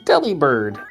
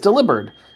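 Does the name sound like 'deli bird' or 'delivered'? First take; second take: deli bird; delivered. First: It sounds like 'deli' followed by 'bird'. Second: It sounds like the word 'delivered'. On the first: The speaker calls it wrong. "there's a deli and there's a bird" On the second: The speaker calls it right. "It's actually a pun on delivered"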